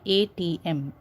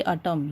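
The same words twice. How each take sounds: First: "A T M" said letter by letter; name each letter in "A T M"; spelled out. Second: ATM run together as "atom"; read as a word. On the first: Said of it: "you say A T M". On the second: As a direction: say "atom" as one word, not letters. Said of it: "You don't say atom". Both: Shown as a demonstration.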